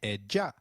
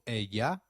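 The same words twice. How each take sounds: First: The double L sounds like a soft English J. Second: The double L sounds like an English Y. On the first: This is how it is said in other areas. "and a soft J in others" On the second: This is how it is said in some areas. "double L takes up the sound of Y in some areas"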